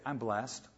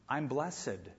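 First: Blessed is said with its ordinary modern pronunciation. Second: Blessed is said with an old-fashioned pronunciation.

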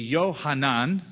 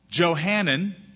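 First: The name is said in its Hebrew pronunciation. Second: The name is said in its English pronunciation.

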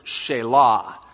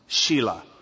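First: It is not said like the name Sheila. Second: It is said like the girl's name Sheila. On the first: The speaker calls it right. "or as we should pronounce it" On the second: The speaker calls it wrong. "because no boy wants it pronounced Shelah"

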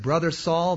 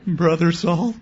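First: The voice is steady and confident. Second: The voice wavers and sounds nervous.

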